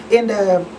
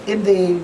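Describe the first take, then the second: No difference in how they are said.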